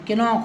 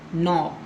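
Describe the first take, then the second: First: The k sound is pronounced at the start. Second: The k sound is silent at the start. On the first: The speaker calls it wrong. "किनॉक होना था" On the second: The speaker calls it right. "लेकिन हम क्या बोलते हैं"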